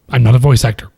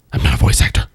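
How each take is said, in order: First: Said in the usual way. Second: Breathy whispered repeat; whispering. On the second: Shown as a demonstration. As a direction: whisper it close to the mic. Repeats line, then whispers.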